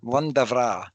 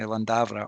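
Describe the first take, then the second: First: The name is said in a grander-sounding way. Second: The name is said in a plain, ordinary way. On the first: "Lundavra sounds quite grand" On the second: "there's different pronunciations for it"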